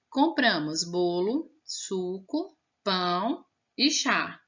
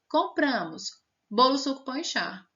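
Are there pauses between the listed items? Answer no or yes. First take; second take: yes; no. First: There is a short pause after each item. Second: The items run together without any pauses. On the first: The speaker calls it right. "depois da palavrinha bolo você tinha que dar uma pausa" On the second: The speaker calls it wrong. "se não tem vírgula, na hora que eu termino a palavra bolo, eu já coloco a palavra suco"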